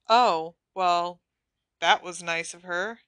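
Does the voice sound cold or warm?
cold. The voice sounds cold and forbidding. The speaker is not pleased at all. The speaker calls it right.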